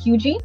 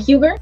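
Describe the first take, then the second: First: The name is said unlike its spelling. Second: The name is said the way it looks. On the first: The speaker calls it right. "but it's actually pronounced Huger" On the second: The speaker calls it wrong. "or Huger"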